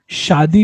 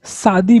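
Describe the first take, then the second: First: शादी said with a clear "sh" sound, shaadi; correct pronunciation. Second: शादी said with a plain "s", saadi; common wrong pronunciation. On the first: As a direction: start शादी with a proper sh. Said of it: "सही उच्चारण है शादी". (शादी को "श" की आवाज़ से बोलें) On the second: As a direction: say शादी with "s" instead of "sh". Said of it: "शादी भी लोग बोलते हैं". (शादी को "स" की आवाज़ से, सादी बोलें) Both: Shown as a demonstration.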